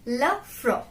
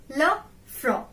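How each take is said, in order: First: Said in the usual way. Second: It's le front said slowly, le front spelled out in sound; slow down on le front so students catch it; slow model pronunciation. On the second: Shown as a demonstration. Teacher slowing down le front for learners. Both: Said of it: "Repeat after me".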